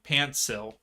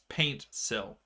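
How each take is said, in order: First: The first syllable sounds like 'pant'. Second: The first syllable sounds like 'paint'. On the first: The speaker calls it wrong. "I keep saying like pantsil, like P A N T, not paint" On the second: The speaker calls it right. "but yes, paint sill"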